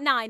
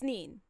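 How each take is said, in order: First: The vowel is an 'eye' sound, like 'line'. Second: The vowel is an 'ee' sound, like 'seen'. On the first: The speaker calls it wrong. "It's not nine" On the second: The speaker calls it right. "it's neen"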